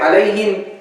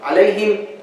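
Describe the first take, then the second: The two takes are said the same way.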